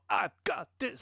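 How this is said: The words start with an aggressive, edgy attack.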